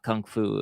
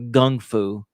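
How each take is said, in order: First: The first word begins with a K sound. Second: The first word begins with a G sound. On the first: The speaker calls it wrong. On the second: The speaker calls it right.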